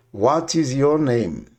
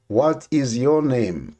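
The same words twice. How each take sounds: The two takes are said the same way.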